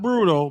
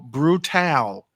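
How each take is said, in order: First: The word is said in an ordinary voice. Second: The word is said in a booming announcer voice. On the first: The speaker calls it wrong. "Not brutal" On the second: The speaker calls it right. "If anybody remembers the game Killer Killer Instinct"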